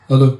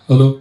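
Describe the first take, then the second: The two takes are said the same way.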